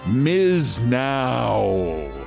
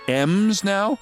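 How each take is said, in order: First: The first part is said as one word, Miz. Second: The first part is said as Ems, like candy. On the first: "Now it's called Miz Now" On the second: "As in M and M's?"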